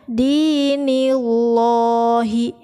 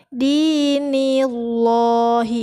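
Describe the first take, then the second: No difference in how they are said.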